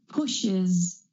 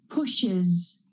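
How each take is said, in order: No difference in how they are said.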